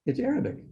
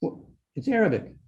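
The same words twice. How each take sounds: First: Higher rising echo. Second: Said in the usual way. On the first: Real, not acted. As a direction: repeat it higher and softer, rising at the end. Repeats identification with rising tune.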